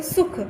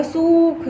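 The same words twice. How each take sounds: First: सुख said at once with a short u; short quick vowel. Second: सुख with the u stretched out long, like सूख; wrong long vowel. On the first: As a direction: cut the u in सुख short, no stretching. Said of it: "एकदम से सुख". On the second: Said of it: "ऐसे नहीं बोला जाएगा". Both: Shown as a demonstration.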